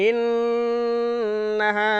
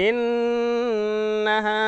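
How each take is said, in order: The two takes are said the same way.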